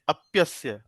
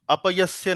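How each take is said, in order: First: The p runs straight into the y. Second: A full vowel separates the p and y. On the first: The speaker calls it right. "आधा प है" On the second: The speaker calls it wrong. "अपयस्य नहीं है"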